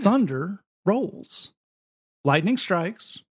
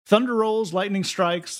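First: It is read in a rhythmic, preacher-style voice. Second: It is read in an ordinary, plain speaking voice.

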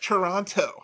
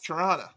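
First: It is pronounced the way a tourist says it. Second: It is pronounced the way a local says it. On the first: The speaker is an outsider to the city. The speaker calls it wrong. "It's not Toronto. You sound like a tourist" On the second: The speaker is from the region. The speaker calls it right. "No. It's Toronto"

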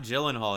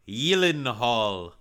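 First: The name is said with plain English sounds. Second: The name is said with German-style sounds. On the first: The speaker calls it wrong. "It's not Gyllenhaal" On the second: The speaker calls it right. "But it's like Gyllenhaal. Or something like, because it's like German or something"

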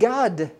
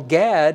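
First: The vowel is an open 'ah' as in father. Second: The vowel is a front 'a' as in cat. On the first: "is pronounced Gad in Hebrew" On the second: "that you would call Gad if you'd pronounce it in English"

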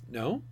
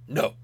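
First: It rises like a gentle question. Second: It falls flat like a firm statement.

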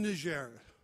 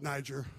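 First: The name is said with a non-American pronunciation. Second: The name is said with an American pronunciation. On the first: The speaker calls it right. "But I'm in Niger" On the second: The speaker calls it wrong. "Americans don't know how to pronounce it. They call it Niger"

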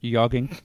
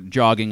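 First: The word begins with a Y sound. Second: The word begins with a J sound.

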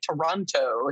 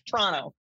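First: The word is said with three full syllables. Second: The word is squeezed into two syllables. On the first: "when people say Toronto" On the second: "It's like two syllables"

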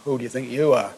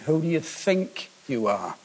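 First: The stress falls on the last word 'you'. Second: The stress falls on the word 'think'. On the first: "it's usually been with an emphasis on the last you" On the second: "I want to put the emphasis this morning on the think"

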